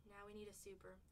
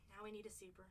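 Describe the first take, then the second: No difference in how they are said.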